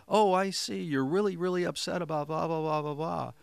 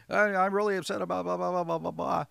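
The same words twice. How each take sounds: First: High and loud, matching the upset energy; matching their intensity. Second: High, loud, fast upset rant; shrill-free loud agitated complaint, much higher and faster; upset client. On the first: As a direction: meet their urgency at the same pitch and volume. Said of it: "match someone in their tonality". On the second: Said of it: "somebody's coming at me". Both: Shown as a demonstration.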